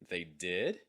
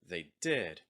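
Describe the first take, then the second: First: The pitch rises at the end. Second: The pitch falls at the end. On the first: "The first time is going to have rising intonation" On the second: "The second one is going to have falling intonation"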